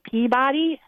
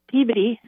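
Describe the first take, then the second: First: "Peabody" as PEA-BAH-dee, full vowel in body; pronounced as spelled. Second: "Peabody" as PEE-buh-dee; local pronunciation. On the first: Newcomer reading the sign, "Peabody" as pea-body. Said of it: "I looked at it and said". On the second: Midwesterner naming the town, "Peabody" said locally as PEE-buh-dee. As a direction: squash the end of "Peabody" into a quick unstressed buh-dee. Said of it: "but I looked at it and said Peabody". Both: Shown as a demonstration.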